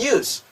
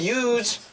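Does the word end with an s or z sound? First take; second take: s sound; z sound. First: The word ends with a hissing s sound. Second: The word ends with a buzzing z sound. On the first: It is used as a noun. "명사로 쓸 때는 use. 해서 스 발음 난다는 거" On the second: It is used as a verb. "사용하다 동사지만"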